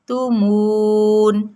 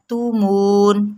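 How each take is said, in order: First: تومون slow with a pure rounded و; correct version. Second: تومون with a majhool, flat و; wrong version. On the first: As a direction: recite تومون properly. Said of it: "مون کی sound نہ آئے". (درست، معروف ادائیگی) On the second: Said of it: "تومون نہیں پڑھنا". (غلط، مجہول ادائیگی) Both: Shown as a demonstration.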